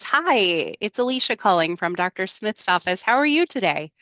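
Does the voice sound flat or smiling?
smiling. It sounds warm and smiling.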